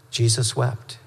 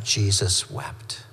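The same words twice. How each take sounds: First: Said in the usual way. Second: Slow, softer and lower, letting it sink in; a hushed, slow reading of the shortest verse; solemn and hushed. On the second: Acted. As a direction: say it gently, as if the grief weighs on it.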